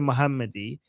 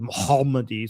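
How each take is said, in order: First: The h is a plain, light Persian h. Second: The h is a deep Arabic throat sound. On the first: "he didn't say Muhammadi"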